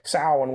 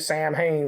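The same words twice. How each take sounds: First: The word is said the traditional way. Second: The word is said as it is spelled. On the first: The speaker calls it right. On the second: The speaker calls it wrong.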